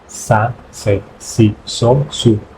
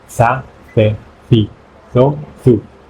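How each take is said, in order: First: The consonant is a plain s sound. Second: The consonant is a Spanish th sound.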